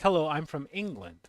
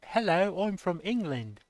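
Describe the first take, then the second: First: It is spoken in a Canadian accent. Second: It is spoken in an English accent. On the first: "The accent is Canada, being like" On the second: "England, they sound, they say"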